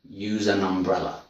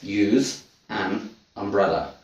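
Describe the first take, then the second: First: The words run together like one word. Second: The three words are said as separate words. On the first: "But native speech, it sounds like one word" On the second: "So that's three words"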